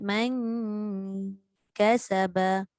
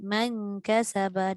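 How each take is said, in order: First: The nasal hum on the n is held long. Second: The nasal hum on the n is cut short. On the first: The speaker calls it right. "macam nombor tiga tadi" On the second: The speaker calls it wrong. "Kita tak boleh lah baca man kasaba. Dengung tak? Dengung. Tapi tak cukup kadar"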